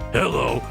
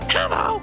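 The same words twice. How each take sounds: First: It is said in a deeper character voice. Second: It is said in a higher character voice. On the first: "but deeper" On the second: "I literally just do a Toad voice"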